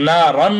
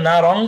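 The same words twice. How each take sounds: First: না রন ending on a clear "n"; না রন with no nasal "ng"; plain n ending. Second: না রং ending in a nasal hum; না রং with ghunnah. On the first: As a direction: close না রন with the tongue tip, no hum. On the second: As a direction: hold the "ng" of না রং in the nose. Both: Shown as a demonstration. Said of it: "না রন না বলে না রং".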